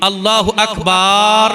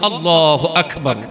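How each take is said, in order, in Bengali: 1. b এবং r-এর মাঝের স্বরধ্বনিটি দীর্ঘ করা হয়। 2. b এবং r-এর মাঝের স্বরধ্বনিটি হ্রস্ব। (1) "বা এবং র এর মাঝখানে একটা আলিফ উচ্চারণ করা হচ্ছে" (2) "ঠিকভাবে শুদ্ধভাবে উচ্চারণ করব"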